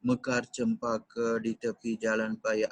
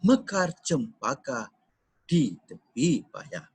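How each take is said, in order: First: The line is read straight through without pausing. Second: The line has a pause after 'cempaka'. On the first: The speaker calls it wrong. "அந்த மாதிரி படிக்க கூடாது" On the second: The speaker calls it right. "இது ரெண்டு ரெண்டா தான் படிக்கணும்"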